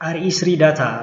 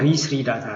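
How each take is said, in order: First: The opening is spelled out as separate letters. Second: The opening is said as one syllable, re. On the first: The speaker calls it wrong. "መጀመሪያ እኔ ጭምር አርኢስሪ ዳታ ብዬ ፕሮናውንስ አደረገው ነበር" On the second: The speaker calls it right. "ግን ኋላ ላይ ሳየው ሪስሪ ዳታ ነው የሚነበበው"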